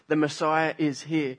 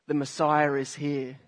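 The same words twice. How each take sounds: First: The words are separated, with no added R sound. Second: An R sound links 'Messiah' to 'is'. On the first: The speaker calls it right. "I'm breaking that up word by word" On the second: The speaker calls it wrong. "if I wasn't conscious of what I'm saying right here, I would say"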